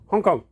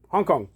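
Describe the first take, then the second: First: It is said in a Chinese-style accent. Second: It is said in a Chinese-style accent.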